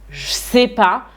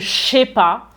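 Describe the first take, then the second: First: The ne is dropped from the phrase. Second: The ne is dropped and je is squeezed in. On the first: "je vais dire je sais pas" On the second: "voire même je sais pas"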